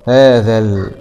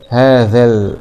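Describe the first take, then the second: The two takes are said the same way.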